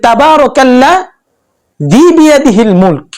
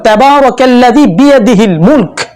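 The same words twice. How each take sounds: First: The verse stops in the middle of a word. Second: The verse flows with no break inside a word. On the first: The speaker calls it wrong. "কে ওয়াকফ করলো" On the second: The speaker calls it right. "আমি একটা আয়াত পড়লাম"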